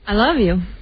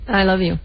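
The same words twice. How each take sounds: First: It is said warmly, with sincere feeling. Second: It is said flatly, without much feeling. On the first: The speaker truly means the words. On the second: The words are said out of habit.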